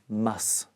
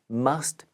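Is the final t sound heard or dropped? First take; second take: dropped; heard. First: The word ends without the t sound. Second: The word ends with a clear t sound.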